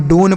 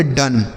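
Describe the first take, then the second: First: डोन with a long "oh" vowel; misread with long O. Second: डन with a short "uh" vowel; O read as short A. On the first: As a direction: wrongly read डोन to rhyme with "bone". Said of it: "गलत तरीके से पढ़ेंगे". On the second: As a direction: read डन to rhyme with "sun". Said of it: "इसे हम अ के रूप में पढ़ेंगे". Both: Shown as a demonstration.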